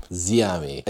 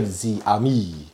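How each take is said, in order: First: "Ziami" with the intended accented stress; correct accented stress. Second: "Ziami" with the accent misplaced and louder; wrong stress. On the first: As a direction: show how "Ziami" should be stressed. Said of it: "the accent emphasizes where you're meant". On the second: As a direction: exaggerate the mistaken stress in "Ziami". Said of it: "Instead of Ziami or something like that". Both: Shown as a demonstration.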